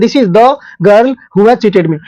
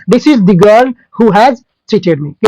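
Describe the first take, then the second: First: Slow read with "the" said as short "dhuh"; plain "the". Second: Very slow read with "the" said as long stressed "dee"; emphatic dee. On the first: Teacher shows the usual reading first: short "the". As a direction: read it slowly, "the" kept short. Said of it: "अभी फिलहाल हम द बोलते हैं". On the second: Teacher shows stressed reading for the noun: "the" as "dee". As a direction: lean on "the" as "dee", slowly. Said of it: "इसको आप लोग दी पढ़ेंगे". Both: Shown as a demonstration.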